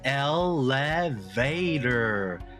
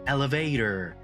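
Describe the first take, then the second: First: Each syllable is said separately with breaks. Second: The syllables are joined smoothly without breaks. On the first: "같이 음절로 소리내서 읽어볼게요" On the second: "붙여서 읽게 되니까"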